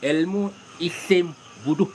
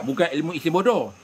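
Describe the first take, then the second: First: Slow, separated words, "bodoh" said as bu-duh; correct name shown. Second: "bodoh" said with o vowels, bo-doh; wrong name shown. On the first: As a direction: spell it out slowly, "bodoh" with u vowels. (sebut perlahan satu-satu, "bodoh" berbunyi bu-duh) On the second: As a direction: warn against saying "bodoh" as bo-do. (sebut "bodoh" dengan bunyi o, bo-doh) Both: Shown as a demonstration. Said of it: "ingat, bukan ilmu isim bodoh".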